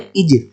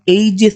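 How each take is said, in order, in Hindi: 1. शब्द 'ee' स्वर ध्वनि से शुरू होता है। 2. शब्द 'ay' स्वर ध्वनि से शुरू होता है। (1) "यहाँ पे होगा इजिस" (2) "तो आप ए जिस नहीं बोलेंगे"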